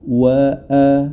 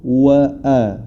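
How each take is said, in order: No difference in how they are said.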